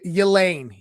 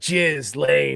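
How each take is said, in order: First: The name starts with a Y sound. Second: The name starts with a J sound. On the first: The speaker calls it right. "it's like um, y- Yelane" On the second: The speaker calls it wrong. "you're like Jizz Lane, right? Like no"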